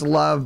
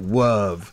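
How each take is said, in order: First: The word is said in its ordinary pronunciation. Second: The word is said in an imitated film pronunciation. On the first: "it's like it's love" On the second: "if you ever watch Princess Bride, you know, they pronounce it love"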